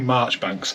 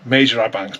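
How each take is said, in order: First: The name is said shortly as 'Marchbanks'. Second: The name is read out letter by letter, 'Major-ibanks'. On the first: This is how the name is actually pronounced. "but you say Marchbanks" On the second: This is how the name is written. "I'll tell you how it was spelled"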